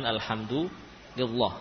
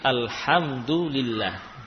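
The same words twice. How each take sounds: First: The l sound is heavy and thick. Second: The l sound is light and thin. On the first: The speaker calls it wrong. "bukan alhamdulillah" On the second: The speaker calls it right. "Allah kadang dibaca dengan tipis seperti alhamdulillah"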